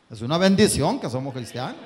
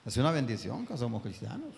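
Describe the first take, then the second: First: Louder, rising on bendición; emphatic. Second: Softer, gentle restatement; quiet repeat. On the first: Preacher insisting to the congregation, emphatic. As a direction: proclaim it firmly. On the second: Preacher repeating to the congregation, softly. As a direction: say it again under your breath. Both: Acted. Same sentence said twice.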